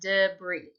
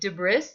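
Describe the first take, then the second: First: The i is said as an ee sound. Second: The i is said as a short ih sound. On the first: The speaker calls it right. "The I is making an E sound, but that's how you say it" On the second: The speaker calls it wrong. "This word looks like debris"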